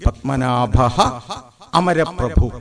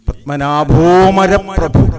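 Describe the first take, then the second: First: Split, with amaraprabhu starting on a separate a. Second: Joined, with maraprabhu following straight after o. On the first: "പത്മനാഭ അമരപ്രഭു എന്നിങ്ങനെയാണ് പദം പിരിക്കേണ്ടത്" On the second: "പത്മനാഭോ എന്ന് കഴിഞ്ഞാൽ പിന്നെ മരപ്രഭു തന്നെയാണ് ഉച്ചരിക്കേണ്ടത്"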